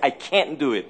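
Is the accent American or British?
American. It is said with an American accent.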